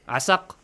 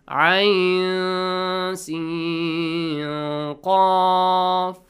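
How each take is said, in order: First: The letters are blended into one two-syllable word. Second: Each letter is said separately by its name. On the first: The speaker calls it wrong. "Asaq, no" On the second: The speaker calls it right. "read these letters separately with their names"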